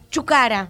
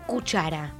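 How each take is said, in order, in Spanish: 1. La palabra empieza con la sílaba chu. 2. La palabra empieza con la sílaba cu. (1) "Muchas veces los chicos y las chicas dicen chucara" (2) "se me ocurre cuchara"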